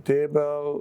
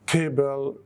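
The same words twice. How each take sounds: First: The first t sound is weak and light. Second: The first t sound is strong and forceful.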